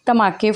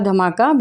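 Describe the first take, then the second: First: The word ends with an 'ay' vowel. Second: The word ends with an 'ah' vowel. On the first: "I am Punjabi so that's my accent इज धमाके" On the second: "it इज़ written as धमाका"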